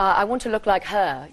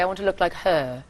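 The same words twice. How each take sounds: First: It is said in an American accent. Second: It is said in a South African accent, lips pursed. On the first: "instead of like" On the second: "you would say ... they purse their lips like that"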